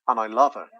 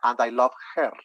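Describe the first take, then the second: First: The words run together in connected speech. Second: Each word is said separately and clearly. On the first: The speaker calls it right. "They're going to say" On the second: The speaker calls it wrong. "they're not going to say"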